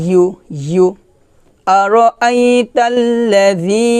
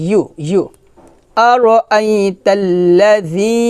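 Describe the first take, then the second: The two takes are said the same way.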